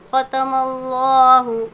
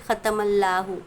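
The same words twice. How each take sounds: First: The L is heavy, said with a full mouth. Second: The L is light, said thin. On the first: The speaker calls it right. "मोटा पढ़ेंगे, मुंह भरकर" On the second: The speaker calls it wrong. "ऐसे नहीं पढ़ना है"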